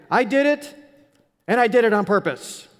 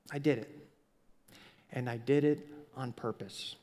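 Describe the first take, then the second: First: Blurted confession. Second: Quiet confession. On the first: Retold or imitated. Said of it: "And I go". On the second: Pretend. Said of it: "is to just say".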